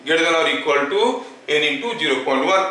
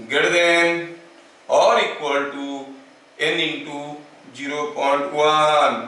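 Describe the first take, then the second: First: Said in the usual way. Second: Drawn out, piece by piece with pauses; slow dictation. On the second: Shown as a demonstration. Teacher giving students the relation, slow dictation. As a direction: spell out the formula slowly for note-takers.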